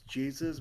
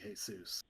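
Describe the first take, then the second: First: The name is said with regular English pronunciation. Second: The name is said with its native pronunciation. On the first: "in regular English pronunciation it's Jesus" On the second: "its native pronunciation it's supposed to be Jesus"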